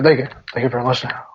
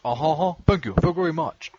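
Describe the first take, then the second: First: [name] impression. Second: Lightly voiced [name] mumble; [name] impression. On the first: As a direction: murmur it like a lazy [name]. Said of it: "that's the way that [name] sounds". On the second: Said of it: "You do an [name] impression".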